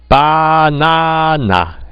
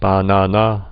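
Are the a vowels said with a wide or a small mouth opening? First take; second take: wide; small. First: Each a vowel is said with a wide-open jaw. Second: The a vowels are said with little jaw opening. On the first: This is how a foreigner would force the native way. "아자 발음할 때마다 이렇게 턱이 이렇게 벌어져야 된다는 거죠" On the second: This is the natural native way of saying it. "턱을 별로 안 벌리고도 우리가 자연스럽게 바나나 할 수 있습니다"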